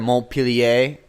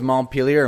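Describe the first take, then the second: First: It is said with a French pronunciation. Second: It is said with an English pronunciation.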